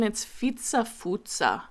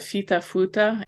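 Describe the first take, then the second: First: The inner consonants sound like ts. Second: The inner consonants sound like plain t. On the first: The speaker calls it right. "I just want to correct my pronunciation" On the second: The speaker calls it wrong. "I've been saying it wrong this whole time"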